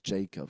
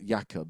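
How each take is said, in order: First: The name is said with English pronunciation. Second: The name is said with Scandinavian pronunciation. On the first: "And then there's Jacob because it's like spelled J A K O B" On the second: "the Scandinavian um, pronunciation, which is Jakob"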